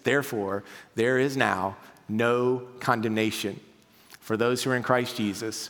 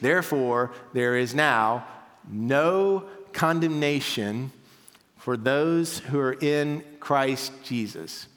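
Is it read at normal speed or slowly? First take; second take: normal; slowly. First: It is read at a normal pace. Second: It is read more slowly.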